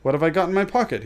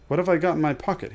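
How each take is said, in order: First: Higher, louder, quick insistence; louder repeated question. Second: Mild aloud musing. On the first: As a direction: press the question harder. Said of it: "he said louder". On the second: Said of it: "he said aloud". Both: A narrator's reading.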